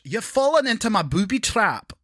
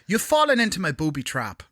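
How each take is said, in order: First: It is said in a Scottish accent. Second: It is said in an Irish accent.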